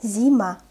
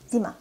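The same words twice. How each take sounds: First: Louder, drawn-out "Зима"; slow reading. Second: Quick, short "Зима"; fast reading. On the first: Teacher models the word for beginners, "Зима" read slowly. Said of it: "I will read this word slowly". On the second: Teacher reads as a native speaker, "Зима" said fast. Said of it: "I will read this word fast". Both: Shown as a demonstration.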